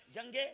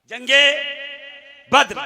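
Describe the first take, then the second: First: Very soft, rising, left hanging; hushed prompt. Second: जंगे at full voice, left hanging; projected prompt. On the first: Preacher prompts the congregation for the battle's name, hushed. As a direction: say जंगे softly and leave it open. Prompts crowd softly, then louder. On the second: Preacher prompts the congregation once more, full voice. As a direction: call out जंगे with a rising end. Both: Real, not acted.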